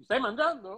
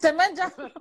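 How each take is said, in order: First: Light suspicious husband; a hint of a nosy husband; husband checking in. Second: Playful accusing echo; teasing echo. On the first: (marito sospettoso, appena accennato) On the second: Retold or imitated. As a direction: tease her with the question. (domanda scherzosa e accusatoria) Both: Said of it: "Massimo uguale".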